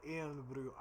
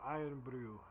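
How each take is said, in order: First: Irn-Bru with first syllable like "airn"; trial pronunciation. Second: Irn-Bru said like "iron-brew", falling; iron pronunciation. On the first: About to try the drink, Irn-Bru as "airn-broo". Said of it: "I don't know necessarily how to say it". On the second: Settling on a name, Irn-Bru as "iron-brew". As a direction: say "Irn-Bru" as "EYE-urn-broo". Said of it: "pretend it's pronounced like iron". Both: Shown as a demonstration.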